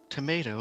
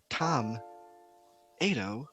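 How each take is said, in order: First: It is said as one ordinary word. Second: It starts like the name Tom. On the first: It clearly refers to the fruit. The speaker calls it right. "listen to how I'm saying it. It's quite clear what it is that I'm expressing" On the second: It sounds like it refers to a person. The speaker calls it wrong. "it sounds like a person's name"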